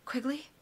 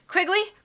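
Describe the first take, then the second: First: It is said quietly, almost to herself. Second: It is said loudly.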